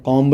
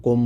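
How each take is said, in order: First: कॉम्ब said with a clear b sound at the end; wrong pronunciation. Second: कॉम said with a silent b, ending on m; correct pronunciation. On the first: Teacher showing students the wrong way, b sounded at the end. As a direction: sound out the final b in कॉम्ब as the mistake to avoid. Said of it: "कॉम्ब नहीं बोलना". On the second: Teacher showing students the right way, silent b ending on m. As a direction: say कॉम cleanly, no b at the end. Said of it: "कॉम बोलना है". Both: Shown as a demonstration.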